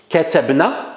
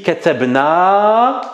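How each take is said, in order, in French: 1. La voyelle finale est courte. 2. La voyelle finale est longue. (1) "c'est katabna sans la prolongation" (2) "avec la prolongation"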